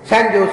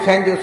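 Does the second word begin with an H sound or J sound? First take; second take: J sound; J sound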